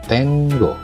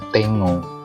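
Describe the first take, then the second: First: The n and g are said separately. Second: The n and g merge into one ng. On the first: The speaker calls it right. "membacanya terpisah antara huruf N dan G" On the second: The speaker calls it wrong. "seperti bahasa Indonesia"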